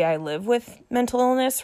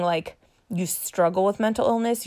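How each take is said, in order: First: "live" said higher and leaned on; stress on live. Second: Said in the usual way. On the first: Shown as a demonstration. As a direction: lift the word "live" in "I live with mental illness". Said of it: "you say". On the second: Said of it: "Instead of saying".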